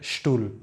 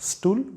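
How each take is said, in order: First: It begins with a sh sound. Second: It begins with a plain s sound. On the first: The speaker calls it right. "but stool" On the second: The speaker calls it wrong.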